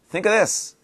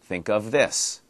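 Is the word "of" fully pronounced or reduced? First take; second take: reduced; full. First: It is quick, with "of" reduced to "a". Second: It is slow, with a full "of" sound. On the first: "But when we say it quickly, it sounds like" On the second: "quickly and slowly"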